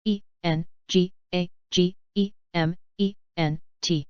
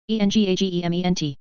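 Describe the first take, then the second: First: Slow, letter by letter; unhurried classroom spelling. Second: Quick letter run; brisk recap spelling; fast spelling. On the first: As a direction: spell each letter out slowly. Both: Shown as a demonstration. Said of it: "spelling drill, slow then fast".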